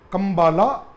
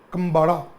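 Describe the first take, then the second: First: The third consonant is an l sound. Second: The third consonant is a d sound. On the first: This follows the spelling. "spelling is K A M B A L A" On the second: This is how Kannada speakers say it. "in Kannada it is pronounced as Kambada"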